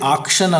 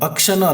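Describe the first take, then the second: First: The first vowel is a long open 'ah'. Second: The first vowel is a short 'uh'. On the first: "ಆಕ್ಷನ್ ಅಲ್ಲ" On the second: "ಅಕ್ಷನೂ ಅಲ್ಲ"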